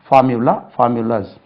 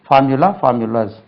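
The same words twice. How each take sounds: Both takes have the same delivery.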